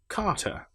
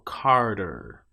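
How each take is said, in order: First: A British accent with the R left silent. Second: A North American accent with a strong R. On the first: "I would say car, which as we discussed is the R affected A long vowel" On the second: "But if I'm North American, I'll say Carter"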